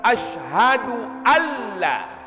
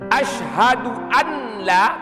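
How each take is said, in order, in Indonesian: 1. Bunyi n melebur menjadi l yang bertasydid. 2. Bunyi n dibunyikan sebelum l. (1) "idgham yang bila gunnah nun yang berjumpa dengan lam" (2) "katanya salah total"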